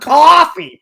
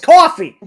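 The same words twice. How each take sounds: First: The first syllable sounds like drawn-out 'caw'. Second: The first syllable sounds like plain 'cof'. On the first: The speaker calls it wrong. "phonetically spelling out the wrong pronunciation" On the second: The speaker calls it right. "it's coffee"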